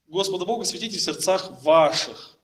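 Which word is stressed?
ваших. The stress falls on the word ваших. "сделают ударение на слово ваших"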